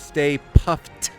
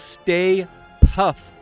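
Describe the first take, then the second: First: The name ends with a hard T sound. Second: The name ends without a T sound. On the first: The speaker calls it right. "with a T at the end there. Hard T" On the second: The speaker calls it wrong. "this whole time I thought it was Stay Puff"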